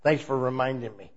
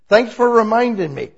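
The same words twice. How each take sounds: First: Said in the usual way. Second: Louder, higher mock gratitude; cheery thank-you. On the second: Shown as a demonstration. Preacher acting out thanking the devil, louder and higher. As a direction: act it out, a bit louder and brighter.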